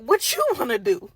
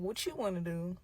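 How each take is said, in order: First: Loud retort with a laugh in it; louder, incredulous comeback; throwing the question back. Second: Soft, understated imitation of him; quiet deflecting question. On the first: Retold or imitated. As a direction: fire it back, stressing YOU. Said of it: "I'm like". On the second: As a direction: hand the question over quietly. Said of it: "He like".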